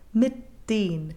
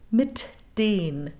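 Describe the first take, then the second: First: The T is stopped without an audible release. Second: The T is released with an audible burst. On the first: "We're basically just stopping the sound" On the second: "It's also possible to explode it"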